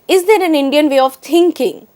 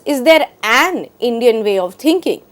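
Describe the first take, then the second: First: The stress falls on the word thinking. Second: The stress falls on the word an. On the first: "emphasizes the word thinking itself" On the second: "emphasizes an"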